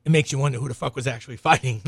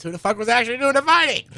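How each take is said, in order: First: Said in the usual way. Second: Higher and louder, fast and incredulous; incredulous outburst. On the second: Real, not acted. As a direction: throw the question up in disbelief.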